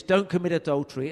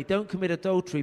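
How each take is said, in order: First: Loud, fast, barking the don't; harsh prohibition. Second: Don't commit adultery as a caring plea, not a command; gently pleading, a hint of tenderness; loving warning. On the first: Retold or imitated. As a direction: hurl don't commit adultery as a scolding ban. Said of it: "Your tone of voice threw me off". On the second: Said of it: "but not the way you said it".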